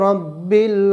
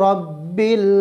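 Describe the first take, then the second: Both takes have the same delivery.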